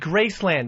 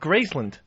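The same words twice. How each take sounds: First: The last syllable has a full 'land' vowel. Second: The last syllable is reduced to 'lund'. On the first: The speaker calls it right. "I think it's supposed to be Graceland, like Disneyland" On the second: The speaker calls it wrong. "not Graceland"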